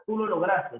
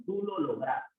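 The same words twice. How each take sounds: First: Lograste said as lograstes with final s; wrong form shown. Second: Said in the usual way. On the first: Shown as a demonstration. Teacher demonstrates the mistaken lograstes ending to students. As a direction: model the error, lograste with an added s. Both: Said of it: "no, tú lo lograste".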